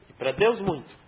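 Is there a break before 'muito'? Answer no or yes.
no. The phrase runs on without a break. They sinned greatly against God.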